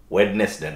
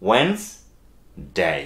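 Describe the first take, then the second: First: "ওয়েডনেসডে" with the first D pronounced, wed-nes-day; sounded D. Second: "ওয়েন্সডে" as wens, a pause, then day; silent D. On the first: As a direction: sound every syllable of "ওয়েডনেসডে", D included. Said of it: "ওয়েডনেসডে না". ("ওয়েডনেসডে"-তে প্রথম ড উচ্চারণ করে) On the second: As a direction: slowly say "ওয়েন্সডে" with no first D. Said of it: "ডি এর উচ্চারণ ছাড়া". ("ওয়েন্সডে" ধীরে, প্রথম ড ছাড়া) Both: Shown as a demonstration.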